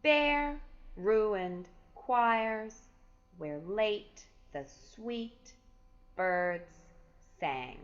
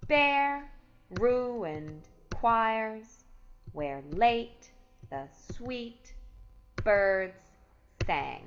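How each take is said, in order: First: Bare, ruined choirs, where late the sweet birds sang with every stressed beat hit hard and slow; overemphasized stress. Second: Bare, ruined choirs, where late the sweet birds sang louder still, each stress punched; loud stressed beats on Bare, choirs, late, sweet, birds; scanning stresses. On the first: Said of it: "overemphasize the stress". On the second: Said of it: "Let's scan it together". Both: Shown as a demonstration.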